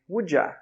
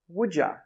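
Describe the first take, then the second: First: The word 'you' is reduced to 'ya'. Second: The word 'you' is reduced to 'ya'.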